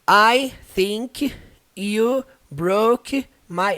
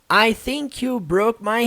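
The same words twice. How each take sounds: First: The words are spoken separately with pauses between. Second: The words are joined smoothly without any pauses. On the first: The speaker calls it wrong. "Não treinar assim, ó" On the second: The speaker calls it right. "tenta tudo junto, direto"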